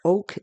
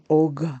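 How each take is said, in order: First: The word ends with a hard K sound. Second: The word ends with a G-like sound. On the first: The speaker calls it wrong. "It doesn't sound like oak" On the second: The speaker calls it right. "It sounds more like og, you know, like a G"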